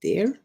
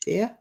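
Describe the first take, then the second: First: Dear as the friend would normally say it, questioning lift; rejected pronunciation. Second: Dear with the r dropped, rising; imitated pronunciation. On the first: Shown as a demonstration. Friend working out Fluffer's pronunciation, rejected version of dear. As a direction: offer dear as the version Fluffer doesn't use. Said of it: "you don't say dear". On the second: Friend copying how Fluffer says dear, imitated pronunciation. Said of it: "How do you say it?".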